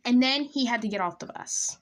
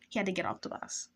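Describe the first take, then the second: First: Emphatic telling. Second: Softer, muted afterthought; quiet repeat. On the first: Teller revealing the crush left the bus, emphatically. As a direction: land the letdown with force. Same line, then dropped to quiet. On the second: Teller repeating the letdown to herself, quietly. Repeat of line as low aside. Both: Real, not acted.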